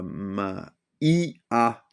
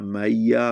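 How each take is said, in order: First: The words are said slowly, letters kept apart. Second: The words are run together at normal speed.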